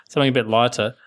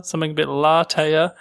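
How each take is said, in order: First: Said in the usual way. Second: LATTEER stretched out as la-TAY-er; punning mispronunciation. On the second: Retold or imitated. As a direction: say "latteer" as latte plus -er, pitch raised. Pun on latte, then said straight.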